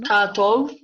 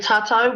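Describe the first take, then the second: First: The last vowel is pronounced with a clear o. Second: The last vowel is pronounced as au. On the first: The speaker calls it right. "we need to get our heads around the o sound" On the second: The speaker calls it wrong. "they say tātou with a au"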